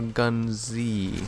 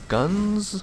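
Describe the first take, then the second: First: It is said as two syllables, gun zee. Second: It is said as one syllable, like guns. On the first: "or Gun Z" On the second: "It's either Guns"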